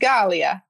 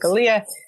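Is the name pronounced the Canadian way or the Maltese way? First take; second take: Maltese; Canadian. First: The name is pronounced the original Maltese way. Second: The name is pronounced the changed Canadian way. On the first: This is how it is said on the island. The speaker calls it right. "if you really want to pronounce it properly, it's Galea" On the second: This is how it is said in Canada. The speaker calls it wrong. "in Canada, we sort of change it to Galea"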